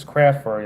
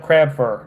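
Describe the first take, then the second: First: "craft" said clearly with the t, then "fur"; a deliberate "craft fur", pronounced carefully for viewers; careful correction. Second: "crab fur" with the t in craft dropped, so it sounds like crab; his Southern accent blurs "craft" into "crab"; a relaxed drawl that swallows the t in "crab fur"; accented slip. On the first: Shown as a demonstration. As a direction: correct himself and stress "craft" with the t sounded. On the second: Real, not acted. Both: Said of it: "I probably got an accent".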